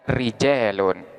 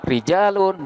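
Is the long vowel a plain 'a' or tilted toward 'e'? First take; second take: toward e; plain a. First: The long vowel is tilted toward e. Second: The long vowel is a plain open a.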